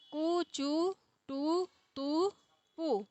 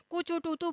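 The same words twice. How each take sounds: First: कु, चु, टु, तु drawn out very slowly and softly; a teacher dictating a code to memorize; slow recited code. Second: Said in the usual way. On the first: Shown as a demonstration. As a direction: spell out कु, चु, टु, तु syllable by syllable, slow and quiet. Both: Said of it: "एक code हो गया ये".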